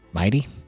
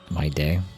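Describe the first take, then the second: First: The name ends in a short 'tee' sound. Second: The name ends in a 'day' sound. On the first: The speaker calls it wrong. "they pronounce it mighty" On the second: The speaker calls it right. "It should be my day"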